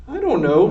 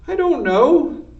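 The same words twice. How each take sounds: First: Said in the usual way. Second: "I don't know" much higher and pleading; scared whine. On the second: A narrator's reading. Mig bracing as Cook advances, high scared whine. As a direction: squeal it out high and afraid.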